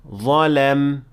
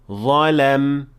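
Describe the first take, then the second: The two takes are said the same way.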